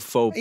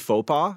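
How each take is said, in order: First: It ends with an added s or z sound. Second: It ends in a vowel with no s sound. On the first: It refers to several blunders. "So just add the S on there" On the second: It refers to a single blunder. "You just don't pronounce it when it's singular"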